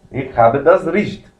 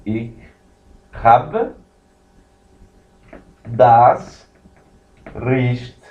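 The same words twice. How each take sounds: First: Said in the usual way. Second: "Ich habe das Recht" with long pauses between words; slow teaching read of "Ich habe das Recht"; slow model phrase. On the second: Shown as a demonstration. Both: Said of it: "E aqui você tem".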